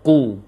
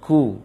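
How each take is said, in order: First: The consonant sounds heavy, deep toward the throat. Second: The consonant sounds light, not deep in the throat. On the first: The speaker calls it right. "seharusnya ku. Getaran terasa di pangkal lisan yang berat ke tenggorokan" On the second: The speaker calls it wrong. "itu keliru"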